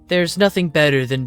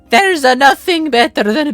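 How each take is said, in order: First: It is read in a plain, ordinary accent. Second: It is read in a put-on Italian accent. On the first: The speaker calls it wrong. "I need to do the accent" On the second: The speaker calls it right. "I need to do the Italian accent"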